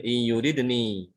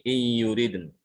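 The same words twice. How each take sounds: First: In yuridni with a long final i; slow, let yuridni end open on ni; wrong ending sounded. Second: In yuriden closed on n, no final i; slow chant, cut the i off yuriden; correct stop, no ya. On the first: Teacher showing what to avoid, final i sounded. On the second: Teacher showing the right stop, final n closed. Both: Shown as a demonstration.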